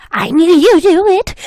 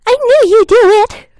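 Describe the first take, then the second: First: Higher and louder, a lightly voiced creepy kid; young voice. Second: Put-on much higher and louder eerie child, laughter at the edge; creepy young voice. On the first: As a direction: sing it out like an eerie child. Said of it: "I heard a young voice". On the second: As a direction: push it up into a shrill-free high childish taunt. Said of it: "I'm gonna do it again".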